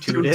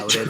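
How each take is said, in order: First: It is said with a stereotyped Canadian vowel. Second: It is said in a plain, ordinary accent.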